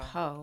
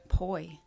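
First: The first syllable has a plain 'o' vowel. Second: The first syllable has an 'oy' vowel. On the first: The speaker calls it wrong. "You said po" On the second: The speaker calls it right. "And what did you say?"

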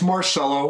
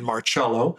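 First: The name is said with a plain American accent. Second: The name is said with an Italian accent.

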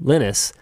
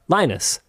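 First: The name is said with Finnish-style vowels. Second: The name is said with English-style vowels. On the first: "because he is Finnish" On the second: "Here in English, those letters in that order are not pronounced like that"

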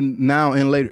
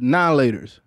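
First: The word 'and' is fully pronounced. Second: The word 'and' is dropped entirely. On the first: This is the full name nobody actually uses. The speaker calls it wrong. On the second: This is how people in the community actually say it. The speaker calls it right. "It's now laters. ... We got rid of the end"

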